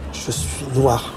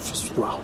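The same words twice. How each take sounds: First: It is said louder than before. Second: It is said at a plain, ordinary level.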